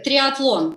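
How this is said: The word is pronounced the Russian way. "in Russian it sounds like triathlon"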